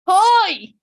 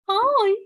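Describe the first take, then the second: First: It is said loudly. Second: It is said softly.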